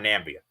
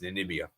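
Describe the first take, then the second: First: The name is said with three syllables. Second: The name is said with four syllables. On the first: The speaker calls it wrong. "It's not Nambia" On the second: The speaker calls it right. "It's Namibia"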